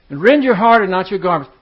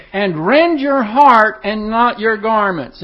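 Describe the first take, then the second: First: Said in the usual way. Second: Solemn scripture reading. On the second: Acted. Verse read solemnly, slowed.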